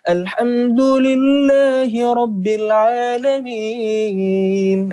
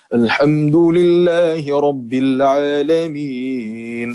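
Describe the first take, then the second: First: The voice is high-pitched and light. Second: The voice is deep and heavy. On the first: It imitates a girl's voice. "itu karakter suara cewek tinggi gitu" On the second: It imitates a boy's voice after it breaks. "Jadi ngebas gitu ya, jadi berat suaranya"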